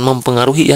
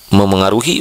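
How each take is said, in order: First: The word has a p sound after mem. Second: The word has no p sound after mem. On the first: The speaker calls it wrong. "bukan mempengaruhi" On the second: The speaker calls it right. "bukan mempengaruhi"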